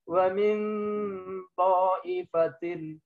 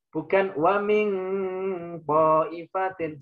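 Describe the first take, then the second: First: The nasal is a forward n near ta. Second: The nasal is a back ng sound. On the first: The speaker calls it right. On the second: The speaker calls it wrong.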